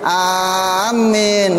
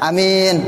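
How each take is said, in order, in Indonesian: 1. Vokal pertama panjang dan m ganda. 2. Vokal pertama pendek dan m tunggal. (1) "bil maddi dengan mad wa tasydid dan tasydid" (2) "bil qasri, baca pendek alifnya, wa takhfif tanpa tasdid mimnya"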